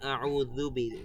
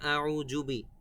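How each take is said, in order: First: The middle consonant is a light z sound. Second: The middle consonant is a hard j sound. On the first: The speaker calls it right. "বলতে হবে আউযু বি, যু যু, পাতলা করে" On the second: The speaker calls it wrong. "অনেকে বলে আউযুবি, জুবি বলা যাবে না"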